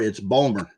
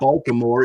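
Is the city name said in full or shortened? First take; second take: shortened; full. First: The name is squeezed into two short syllables. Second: The name is said in full, all syllables. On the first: The speaker calls it right. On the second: The speaker calls it wrong. "it's not"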